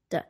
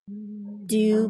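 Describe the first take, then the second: First: The word is reduced to a short d sound. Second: The word is said fully with a clear vowel.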